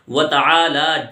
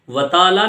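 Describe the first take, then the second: First: It is said as 'ta-aala' with an 'aa' sound. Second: It is said as 'taala' without the extra 'aa'. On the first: The speaker calls it right. "आ की आवाज निकालनी है" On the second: The speaker calls it wrong. "व ताला नहीं बोलना"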